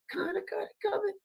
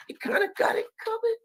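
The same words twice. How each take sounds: First: High and much softer, breathy echo; faint falsetto echo. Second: High crying falsetto, sing-song; sarcastic whimper up high; falsetto taunt. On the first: Repeating the jab to the audience in a faint high falsetto. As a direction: trail off the taunt under the breath. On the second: Taunting the leaders in a high mock falsetto. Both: Pretend.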